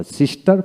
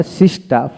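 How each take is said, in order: First: "সিস্টার" with the final r sounded; fully pronounced. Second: "সিস্টার" without its final r; non-rhotic British-style "সিস্টার"; r dropped. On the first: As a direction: say all of "সিস্টার", through to the r. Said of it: "সিস্টার পোড়াটাই বলবো". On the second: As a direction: end "সিস্টার" on an open aa. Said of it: "এইভাবে বলবো না". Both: Shown as a demonstration.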